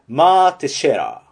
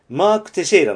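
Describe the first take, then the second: First: The k at the end of Mark is dropped. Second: The k at the end of Mark is pronounced.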